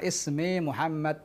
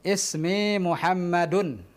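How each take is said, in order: First: The name ends without the -un ending. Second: The name ends with the full -un ending. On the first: It is how people say it in everyday conversation. "Kalau dalam dialog sehari-hari kita tentu katakan" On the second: It shows the learner every final vowel. "ana hidupkan semua harokat"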